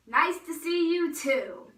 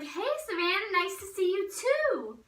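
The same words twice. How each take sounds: First: Loud, slow, drawn-out reply; mock greeting back. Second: Mock cheery greeting. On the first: Girl echoing cousins' greeting back, loud drawn-out mock reply. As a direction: echo the greeting slowly and pointedly, pitched up. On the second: Cousins to girl who questioned their visit, high mock-sweet greeting.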